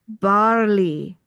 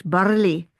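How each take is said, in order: First: Barley in a plain English accent, slowly. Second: Barley in a mock Scottish accent, rolled r, a bit louder. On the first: Doctor explaining barley to viewers, English accent. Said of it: "when I say it with my English accent". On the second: Doctor jokingly offering viewers a Scottish accent. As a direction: try barley the Scottish way, r sounded. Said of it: "I could try Scottish". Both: Shown as a demonstration.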